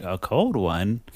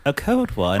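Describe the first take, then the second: First: Said in the usual way. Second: Higher-pitched British accent. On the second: Shown as a demonstration. Redoing the men's puzzled reply, British accent. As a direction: put on a British accent, questioning. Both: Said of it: "let me do it in a British accent".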